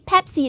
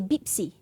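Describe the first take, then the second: First: The word begins with a P sound. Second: The word begins with a B sound. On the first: The speaker calls it right. "If we say Pepsi" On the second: The speaker calls it wrong. "then they say Bipsy"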